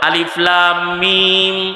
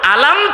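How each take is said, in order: First: It is read as three separate letter names. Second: It is read together as one short word. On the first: The speaker calls it wrong. "উনিও কোরআন পড়তে যায় ভুল বলল" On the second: The speaker calls it right. "এইটা হইল নবীর তেলাওয়াত"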